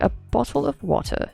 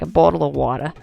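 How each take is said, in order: First: It is said in a British accent. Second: It is said in an Australian accent.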